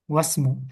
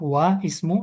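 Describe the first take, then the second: First: The words are joined and the vowel is dropped. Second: The words are separated and the vowel is pronounced. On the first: "kalau dia diwasal, wa langsung ke setelahnya, maka nggak dibaca" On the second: "Tapi kalau mau kita pisah, wa ismu ya dibaca"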